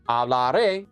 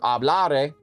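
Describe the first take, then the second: First: The stress is on the final syllable. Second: The stress is not on the final syllable. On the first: It means I will speak. "we're going to stress that syllable" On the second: It is the future subjunctive form. "hablare rather is the future subjunctive"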